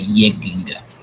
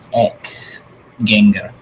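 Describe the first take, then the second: First: The first word is said as yeg. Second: The first word is said as ek. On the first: It is the late Viking Danish, Faroese or Icelandic form. "you would say yeginga" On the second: It is the standard Old Norse form. "instead of saying ek genga"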